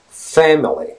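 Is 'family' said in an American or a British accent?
American. The first vowel sounds like a distinct E. "a lot of different words in American English are pronounced with the E"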